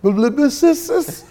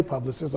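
First: "Publicist." garbled as lib-i-sis-sis, high and slow with a laugh; mangled word. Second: Said in the usual way. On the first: Retold or imitated. Mocking his younger self who could not say publicist, laughing stumble. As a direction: stumble through "Publicist." slowly, tripping over the syllables. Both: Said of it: "I couldn't even say publicist".

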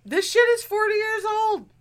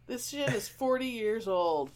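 First: Much higher and louder, exasperated; exclaimed. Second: Softer, flat deadpan echo; deadpan repeat. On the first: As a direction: blurt it out in disbelief. Exasperated exclamation, then repeated flat. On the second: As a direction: say it again under your breath, deflated. Repeats own exclamation, deflated. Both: Real, not acted.

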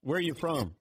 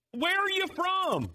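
First: Said in the usual way. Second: Very high, drawn-out yelled question; mock yell. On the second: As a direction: holler it slowly as if to someone dim. Joke punchline, question repeated as yell.

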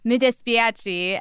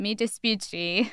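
First: "Mi dispiace" slowly, dispiace as dis-pee-ah-chee; corrected Italian. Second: "Mi dispiace" said slowly, dispiace as tis-pyu-chee; slow careful Italian. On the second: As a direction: spell out "Mi dispiace" slowly with a "spyu" in the middle. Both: Retold or imitated.

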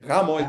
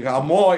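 First: "Gamo" stressed on the first syllable, GA-mo. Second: "Gamo" stressed on the last syllable, ga-MO. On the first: Contrasting wedding with the rude word, "Gamo" stressed on the A. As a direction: hit the A in "Gamo". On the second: Contrasting the rude word with wedding, "Gamo" stressed on the final O. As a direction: push the O of "Gamo" louder. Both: Shown as a demonstration. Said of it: "This is what I'm saying about emphasis".

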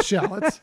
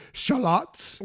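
First: "shallots" said SHAL-uts, stressed on the first syllable; "shallots" with a short "a" up front and a weak ending; everyday pronunciation. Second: "shallots" said shuh-LOTS, stressed on the second syllable; "shallots" as a posh-style shuh-LOTS with an open "ah"; fancy pronunciation. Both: Shown as a demonstration. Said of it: "If you don't wanna say it fancy".

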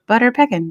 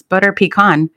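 First: PECKIN as PECK-in, stress up front; mispronounced pecan. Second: PECAN as pee-KAHN, long open last vowel; corrected pecan. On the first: Insisting on the nickname to a friend, mispronounced pecan. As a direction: say Peckin to rhyme with "beckon". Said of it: "No, it's Butter Pecan". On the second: Friend correcting her word, corrected pecan. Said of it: "They're like, "No, it's". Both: Retold or imitated.

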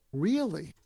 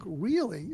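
First: Said in the usual way. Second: "Really?" with an interested rising tune; "Really?" said curious and rising, asking for more; inviting really. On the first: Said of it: "another conversation deepener is to say to them". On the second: Shown as a demonstration. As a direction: lift the end of "Really?" to draw them out. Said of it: "inviting them to say more".

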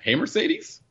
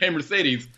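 First: "Hey, Mercedes?" with a high rising question tune on Mercedes. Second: "Hey, Mercedes," as a firm statement, falling at the end; statement tune. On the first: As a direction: ask "Hey, Mercedes?" as if unsure, pitch climbing at the end. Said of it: "don't think you have to say it like a question". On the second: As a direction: command "Hey, Mercedes," with a settled fall. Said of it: "you can make a statement". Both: Shown as a demonstration.

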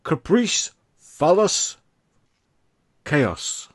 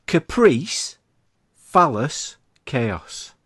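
First: "Caprice" and "phallus" high and rising; teasing game-show list, up at each end; hammed-up game-show options; quizmaster sing-song. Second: First two words called out high and loud; quiz list. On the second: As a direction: announce each option with a fall. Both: Shown as a demonstration. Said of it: "Are you ready?".

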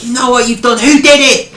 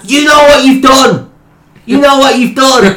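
First: Mock Birmingham boss, menacing repeat; Birmingham manager. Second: Put-on high, loud Birmingham accent accusing; mock Birmingham boss, menacing repeat; Birmingham manager. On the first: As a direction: manager in high Birmingham accent. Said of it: "Like, and". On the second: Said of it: "He's like".

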